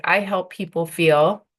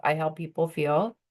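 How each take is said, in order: First: "I help people feel" said slowly and louder, each word weighted; lead line demo. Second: Said in the usual way. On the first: Shown as a demonstration. Coach showing students the opening line, slow and emphatic. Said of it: "So you would say". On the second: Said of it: "bring it down from the line above".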